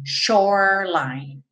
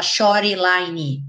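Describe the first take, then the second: First: SHORELINE in two slow syllables, shore-line; silent E's. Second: SHORELINE misread as sho-ree-lai-nee; wrong Brazilian spelling-reading of "shoreline"; both E's pronounced. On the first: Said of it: "Então, você não fala". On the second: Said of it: "os dois S dessa palavra não são pronunciados". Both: Shown as a demonstration.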